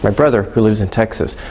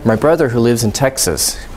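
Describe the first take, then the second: Both takes have the same delivery.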